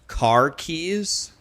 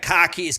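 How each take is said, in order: First: It is said in a plain, general accent. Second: It is said in a Boston accent.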